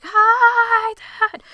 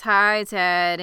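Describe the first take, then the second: First: Very high, loud, drawn-out holler; exaggerated, stretched-out calling yell; shouted greeting. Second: Said in the usual way. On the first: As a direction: holler it so he hears from the field. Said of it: "I can't hear you". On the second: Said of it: "And she says".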